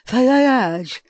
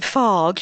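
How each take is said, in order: First: It has two syllables with a 'y' sound. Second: It is one syllable, rhyming with 'large'. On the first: The speaker calls it right. "It's the Greek pronunciation" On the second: The speaker calls it wrong. "I've been pronouncing it incorrectly"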